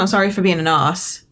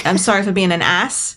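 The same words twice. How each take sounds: First: "arse" with a long AH and no R; R-less "arse". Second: "ass" said with a short A, as in donkey. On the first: Brit corrects co-host, "arse" with long AH, no R. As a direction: draw "arse" out as "ahss", R silent. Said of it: "you don't pronounce the R". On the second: Brit demonstrates the wrong-sounding word, "ass" with short A. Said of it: "That doesn't sound right to us". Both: Shown as a demonstration.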